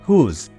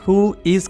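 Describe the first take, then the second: First: It is said contracted into one short syllable. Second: It is said as two separate full words. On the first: "short करके हुज भी बोला जाता है" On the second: "हु इज़ को short करके"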